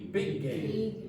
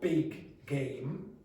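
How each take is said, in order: First: The two g sounds merge into one long g. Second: The two g sounds are pronounced separately. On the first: The speaker calls it right. "you link them and make it long" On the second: The speaker calls it wrong. "We don't go big game. Nobody does that"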